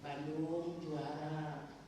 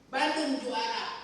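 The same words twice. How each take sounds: First: It is said slowly and softly. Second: It is said with lively, sporty energy. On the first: It is a prayer asking God. "Kalau bacanya pelan-pelan jadi doa" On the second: It is a sporty cheer. "Kalau dengan sportif"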